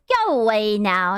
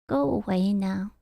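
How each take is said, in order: First: It is said forcefully, without sadness. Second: It is said in a sad, deflated way. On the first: "It wasn't even like" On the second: "He sounded so sad. ... It was just like"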